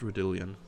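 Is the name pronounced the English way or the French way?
English. The name is pronounced the English way. "all English commentators uh, call it"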